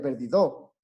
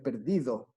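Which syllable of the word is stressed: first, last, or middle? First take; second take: last; middle. First: The stress is on the last syllable. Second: The stress is on the middle syllable. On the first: The speaker calls it wrong. "si fuera per- en do, sería perdido" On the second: The speaker calls it right. "Pero es perdido. ... la sílaba tónica está en di"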